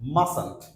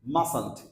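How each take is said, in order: Both takes have the same delivery.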